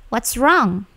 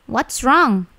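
The two takes are said the same way.

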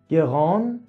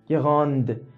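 First: The word ends without a d sound. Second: The word ends with a clear d sound. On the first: The adjective is masculine. "تو مثال اول گفتم گران" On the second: The adjective is feminine. "اوی که اومد دی تلفظ شد"

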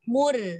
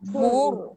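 First: The r sound is light and thin. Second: The r sound is heavy and thick. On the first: The speaker calls it wrong. "Jangan rendah mulut macam ni eh. Nanti dia jadi nipis" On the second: The speaker calls it right. "Itu baru tafkhim"

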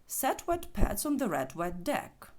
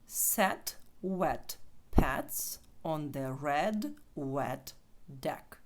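First: The sentence is said at a fast pace. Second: The sentence is said at a slow pace. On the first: "Тепер спробуємо швидше" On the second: "читаємо щодо разом повільно"

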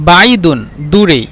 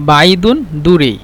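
No difference in how they are said.

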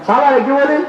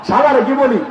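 The two takes are said the same way.

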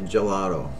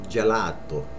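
First: The word is said with an English-speaking accent. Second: The word is said with an Italian accent. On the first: The speaker calls it wrong. "A lot of people say gelato, which is right, but without the accent" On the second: The speaker calls it right. "It's gelato"

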